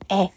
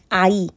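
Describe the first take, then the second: First: It is one steady vowel sound. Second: It glides from one vowel into another. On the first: This is the modern reading. "이거는 에 라고 발음하지 않고" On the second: This is the Middle Korean reading. "이런 식으로 읽었다는 거예요"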